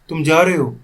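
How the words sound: It is said with a questioning tune. The listener is being asked whether they are going. "अब मैंने इसी का question बना दिया"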